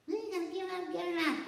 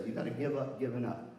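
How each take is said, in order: First: Much higher, put-on voice of a nagging teacher; mock witch teacher. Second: Said in the usual way. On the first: Miss Sellers nagging a med student, witchy mock voice. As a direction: cackle it like a witch on the shoulder. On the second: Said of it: "Miss Sellers would always say".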